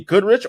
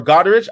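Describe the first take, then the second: First: "Goodrich" with the first vowel as in "good"; unsure pronunciation. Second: "Goderich" with an open "god" vowel first; alternative pronunciation. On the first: Host guessing at a viewer's town name, "Goodrich" said with a "good" vowel. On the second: Host guessing at a viewer's town name, "Goderich" said with a "god" vowel. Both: Real, not acted. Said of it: "not too sure if I'm pronouncing that well".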